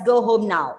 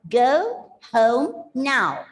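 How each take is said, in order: First: The O vowel is said carelessly, without attention. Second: The O vowel is said carefully and fully. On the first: The speaker calls it wrong. "if you don't pay attention on the pronunciation, you tend to read it as" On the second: The speaker calls it right. "You have to read it as"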